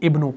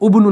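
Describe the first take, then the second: First: The word begins with an i vowel. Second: The word begins with a u vowel. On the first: The speaker calls it right. "बल्कि इब्नु पढ़ेंगे" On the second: The speaker calls it wrong. "उब्नु नहीं"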